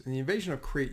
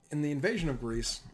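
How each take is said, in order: First: Corrected word Crete set apart from Greece; stress on Crete. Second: Said in the usual way. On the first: Real, not acted. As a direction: land firmly on Crete as the fix. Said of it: "not invasion of Greece". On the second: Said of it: "or, sorry, not invasion of Greece".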